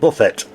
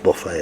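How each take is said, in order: First: The final t sound is pronounced. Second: The final t sound is silent. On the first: "it's got a T on the end" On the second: "I know it's Buffet"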